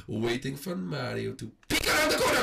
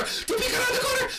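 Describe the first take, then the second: First: Said in the usual way. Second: High excited repeat, shouted. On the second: Real, not acted. Gamer shouting the repeat to his viewers, excited. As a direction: yell it out in delight.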